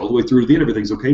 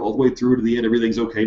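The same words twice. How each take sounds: First: It is said the fastest. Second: It is said at a slower pace.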